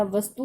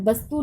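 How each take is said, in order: First: वस्तु said with a v, as vastu; the right way: वस्तु starting with v; correct v sound. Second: वस्तु said with a b, as bastu; the wrong way: वस्तु starting with b; wrong b sound. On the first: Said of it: "वस्तु होता है". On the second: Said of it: "वस्तु नहीं होता". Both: Shown as a demonstration.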